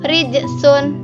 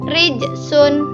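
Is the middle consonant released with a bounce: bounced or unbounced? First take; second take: bounced; bounced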